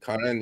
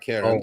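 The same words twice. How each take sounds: First: The name is said with Armenian pronunciation. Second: The name is said with English pronunciation. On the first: The speaker calls it right. "Karen in Armenian" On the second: The speaker calls it wrong. "not Karen"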